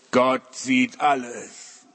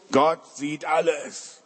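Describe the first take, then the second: First: Very slow, solemn, ghostly voice from nowhere; mysterious voice. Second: Very slow, solemn parrot squawking its phrase; the parrot repeats it slowly and gravely. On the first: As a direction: drag it out like an unseen voice in the dark. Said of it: "Und die Stimme sagt so". (sehr langsame, feierliche, geisterhafte Stimme) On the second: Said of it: "Und der Papagei sagt so". (sehr langsame, feierliche Papageienstimme) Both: Acted.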